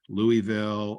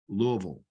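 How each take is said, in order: First: The word is said with its syllables fully sounded. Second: The word is squeezed almost into one syllable. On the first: This is how outsiders say the name. The speaker calls it wrong. "some people will say" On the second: This is how locals say the name. The speaker calls it right. "they almost contract it to a single syllable"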